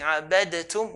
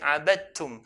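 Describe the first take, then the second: First: The d sound is pronounced separately. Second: The d sound is merged into the t. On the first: The speaker calls it wrong. "instead of saying abadatum" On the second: The speaker calls it right. "we'll say abadtum"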